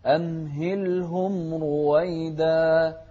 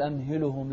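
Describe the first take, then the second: First: Slow chant, أمهلهم as amhil-hum; vowelless laam. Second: Quick أمهلهم as amhilu-hum; wrongly vowelled laam. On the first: Teacher giving the correction, chanted أمهلهم with still laam. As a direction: hold a closed l before h in أمهلهم. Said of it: "اللام هني عليها سكون". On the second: Teacher showing the mistake, أمهلهم with a vowelled laam. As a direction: add a vowel after l in أمهلهم. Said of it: "لا تقول أمهلهم". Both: Shown as a demonstration.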